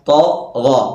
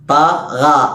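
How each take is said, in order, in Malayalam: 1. കനത്ത ശബ്ദം, വായ നിറഞ്ഞ്. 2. മെലിഞ്ഞ ശബ്ദം, വായ തുറന്ന്. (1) "വായ നിറഞ്ഞ സ്വരത്തിൽ" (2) "ഇങ്ങനെയല്ലല്ലോ നമ്മൾ ഉച്ചരിച്ചത്"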